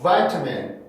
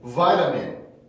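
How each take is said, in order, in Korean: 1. t는 또렷하고 날카로운 t 소리입니다. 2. t는 빠르고 부드러운 플랩입니다. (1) "vitamin 이라고 하는 사람보다는" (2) "플랩을 할 수 있다"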